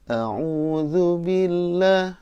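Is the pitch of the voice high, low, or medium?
medium. It is recited at a higher pitch.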